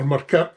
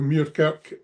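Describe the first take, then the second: First: The name is said the local way. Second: The name is said in the standard way.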